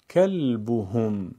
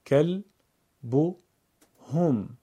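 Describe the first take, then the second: First: کلبهم in one slow flow, holding the l; joined-up reading. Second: کل، بو، هم as three separate syllables; syllable-by-syllable reading. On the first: Teacher puts the pieces together: کلبهم slowly as one word. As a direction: run کلبهم together without breaks. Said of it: "پس از اون به صورت پیوسته قرائت کنید". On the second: Teacher breaks up a word for learners: کل، بو، هم spaced out. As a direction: pause after each part: کل، بو، هم. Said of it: "بخش خوانی کنید". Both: Shown as a demonstration.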